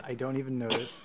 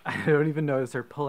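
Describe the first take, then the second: First: Said in the usual way. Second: Louder, breaking into laughter on don't; laughing through I don't even notice. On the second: Real, not acted. Laughs through the repeated phrase.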